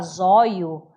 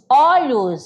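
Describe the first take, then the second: First: The word is said in a reduced form. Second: The word is said in its full form.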